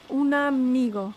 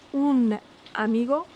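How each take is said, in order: First: "un amigo" run together as "u-namigo"; linked. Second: "un amigo" with the words kept apart; separated. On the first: Teacher showing the Spanish words joined. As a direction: slide the n into amigo. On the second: Teacher showing Spanish words first apart. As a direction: pause lightly after un. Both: Shown as a demonstration. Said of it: "Em espanhol".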